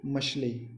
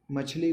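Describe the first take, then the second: First: मछली said as "mashli"; sha for chha. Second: Said in the usual way. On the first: Shown as a demonstration. Teacher showing a common mistake, मछली said as "mashli". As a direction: put "sh" in place of chh in मछली. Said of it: "शा कहते हैं". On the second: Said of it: "छा को शा कहते हैं".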